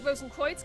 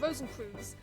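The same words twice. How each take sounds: First: The name is pronounced the German way. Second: The name is pronounced the English way. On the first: "I would call it Rosencreutz because it looks German or maybe Dutch" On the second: "in England we'd probably call that Rosencreutz"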